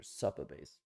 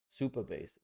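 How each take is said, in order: First: Supabase said with "sup" as in supper; variant pronunciation. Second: Said in the usual way. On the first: Shown as a demonstration. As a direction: say Supabase as SUP-uh-base, short first vowel. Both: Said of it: "however you wanna pronounce it".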